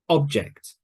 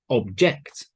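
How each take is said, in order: First: The stress is on the first syllable. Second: The stress is on the second syllable. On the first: It is used as a noun. "N means noun" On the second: It is used as a verb. "V is verb"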